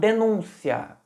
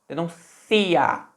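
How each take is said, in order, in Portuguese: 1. A tônica está na segunda sílaba. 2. A tônica está na terceira sílaba. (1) "com a ênfase no U. O acento estava no U" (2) "Olha onde está a ênfase. No I"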